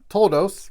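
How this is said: The word ends with an s sound.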